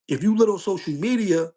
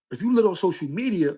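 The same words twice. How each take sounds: The two takes are said the same way.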